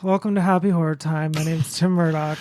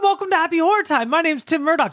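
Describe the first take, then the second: First: It is said without enthusiasm. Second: It is said with enthusiasm.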